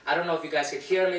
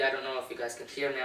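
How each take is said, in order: First: The voice is loud, close to yelling. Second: The voice is at a normal speaking volume. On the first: "speaking quite loudly" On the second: "here I am at a normal tone"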